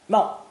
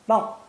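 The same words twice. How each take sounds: The two takes are said the same way.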